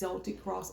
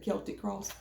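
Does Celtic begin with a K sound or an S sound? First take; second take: S sound; K sound. First: Celtic begins with a soft S sound. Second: Celtic begins with a hard K sound.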